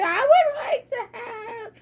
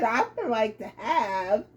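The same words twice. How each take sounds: First: "I would like to have" squeezed out through giggles; Mary frozen mid-order, laughing; laughing halting order. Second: Lower, quieter, stalled "I would like to have"; husband freezing as he orders, lower and softer; low halting husband. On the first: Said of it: "she said". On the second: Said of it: "he said". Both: Retold or imitated.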